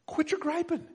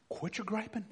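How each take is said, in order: First: Quit your griping lifted higher; higher repeat. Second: Quit your griping dropped soft; soft command. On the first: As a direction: repeat it pitched up, pressing the point. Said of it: "repeated command, higher take". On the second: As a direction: say it quietly, almost to yourself. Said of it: "repeated command, soft take". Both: Shown as a demonstration.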